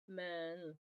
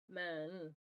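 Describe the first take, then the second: First: A short schwa sits between m and n. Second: The same.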